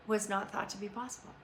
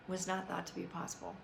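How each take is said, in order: First: Said in the usual way. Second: Quiet repeat. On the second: Real, not acted. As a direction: repeat it softer, letting it sink in.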